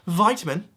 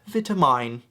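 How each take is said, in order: First: It is said with an American pronunciation. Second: It is said with a British pronunciation. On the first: The speaker calls it wrong. "Americans pronounce it vitamin" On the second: The speaker calls it right. "The correct way to pronounce that is vitamine"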